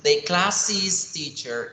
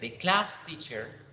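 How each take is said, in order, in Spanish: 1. Class termina en una sílaba 'iz' agregada. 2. Class se dice en una sílaba, sin el sonido 'iz' agregado. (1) "para que me entiendan la posesión" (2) "no la pronuncio diferente, no va a sonar"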